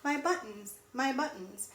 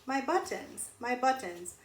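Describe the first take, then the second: No difference in how they are said.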